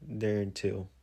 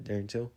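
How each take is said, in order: First: Said in the usual way. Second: "Darren Till?" asked with a rising tune; unsure question. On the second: Shown as a demonstration. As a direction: lift "Till" upward, asking if it's right. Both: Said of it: "That's his name, right?".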